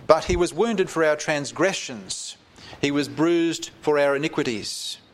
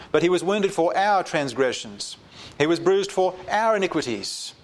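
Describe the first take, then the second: First: Said in the usual way. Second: Weight every "our", voice lifted; stress on our. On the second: Shown as a demonstration. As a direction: hit "our" each time, for our transgressions, for our iniquities. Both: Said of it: "the emphasis is on the word "our".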